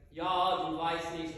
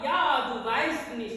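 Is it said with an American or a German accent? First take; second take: American; German. First: It is said muddy, with an American accent. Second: It is said crisply, with a German accent.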